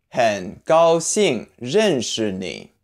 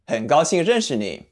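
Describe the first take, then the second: First: 很高兴认识你 syllable by syllable, slowly; slow model reading. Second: Said in the usual way. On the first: Shown as a demonstration. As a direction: spell out 很高兴认识你 slowly for learners. Teacher models phrase slowly, then naturally.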